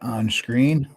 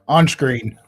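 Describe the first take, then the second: First: It is said in his normal voice. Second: It is said imitating Captain Picard.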